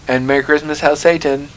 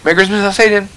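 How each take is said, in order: First: There is a break between the two greetings. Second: Both greetings run together as one phrase.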